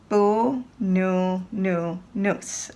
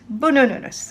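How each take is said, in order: First: The word is said slowly, syllable by syllable. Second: The word is said quickly, syllables run together. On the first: "We'll do it slowly" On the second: "we'll do it fast"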